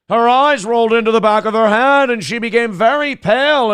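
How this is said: It is read in a put-on character voice. The speaker calls it right. "You guys got to tell me to do the voice"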